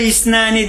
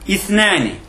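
First: The middle consonant is a plain s sound. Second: The middle consonant is a lisped th sound. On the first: It means something else. The speaker calls it wrong. "Bunun adı İsnani değil" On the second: It means two. The speaker calls it right. "Peltek t ile yani"

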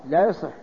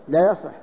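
No difference in how they are said.

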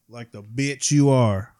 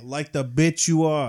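First: It is said in the speaker's normal accent. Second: It is said in a New York accent.

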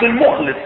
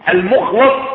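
First: The vowel after kh is i. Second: The vowel after kh is a. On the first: The person is sincere on their own part. "بعكس المخلص فقد تكون أنت مخلصا" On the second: The person was purified and chosen by God. "المخلص من أخلصه الله تعالى واصطفاه"

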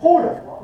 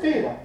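First: The first vowel is a pure u-sound. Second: The first vowel is a pure i-sound. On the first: "والضم؟" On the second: "الكسر الخالص"

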